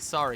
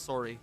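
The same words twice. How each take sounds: First: It is said in a general, non-Canadian accent. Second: It is said in a Canadian accent.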